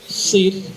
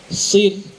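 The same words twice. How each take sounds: No difference in how they are said.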